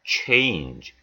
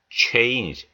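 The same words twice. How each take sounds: First: "change" as Korean 체인지, with an added final vowel; wrong Korean-style ending. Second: "change" with lips pushed round for the CH and no vowel at the end; correct rounded CH. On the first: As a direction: end "change" on a full 지 syllable. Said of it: "change가 아니고". ("change"를 '체인지'로 낸 잘못된 발음) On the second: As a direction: round the opening of "change" and stop on a soft j. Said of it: "입을 동그랗게 모아서 내미시면서". ("change"를 입술을 둥글게 내밀어 정확히 발음) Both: Shown as a demonstration.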